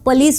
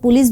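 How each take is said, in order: First: The word is said in a careful, formal way. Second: The word is said in a casual, everyday way. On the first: "correct pronunciation देखें तो पुलिस होता है" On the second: "बोलचाल में सब लोग पुलिस बोलते हैं"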